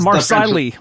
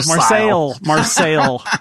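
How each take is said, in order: First: The name is said with an American pronunciation. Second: The name is said with a French pronunciation. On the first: This is how Americans say it. "as we say in America" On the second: This is how the locals say it. "as they probably say"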